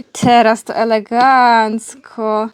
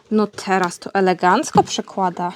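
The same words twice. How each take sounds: First: Slow, savoured praise of the trick; slow drawn-out praise. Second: Said in the usual way. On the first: Real, not acted. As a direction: stretch every syllable of elegancko slowly. Praising dog's paw trick again.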